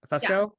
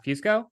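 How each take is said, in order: First: "Fusco" said as FUSS-koh, questioning; corrected name pronunciation. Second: "Fusco" said as FYOOS-koh, questioning; mistaken name pronunciation. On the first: Host retrying a guest's friend's surname, "Fusco" as FUSS-koh. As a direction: say "Fusco" with a short uh, no y-glide. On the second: Host guessing a guest's friend's surname, "Fusco" as FYOOS-koh. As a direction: say "Fusco" with a y-glide and long oo. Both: Real, not acted.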